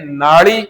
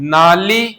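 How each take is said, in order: First: The middle consonant is a retroflex flapped l. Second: The middle consonant is a plain dental l. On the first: This is how it is said in rural regions. "जबकि हम गांवों में उच्चारण करते हैं" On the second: This is the standard pronunciation. "उच्चारण तो शुद्ध क्या होना चाहिए?"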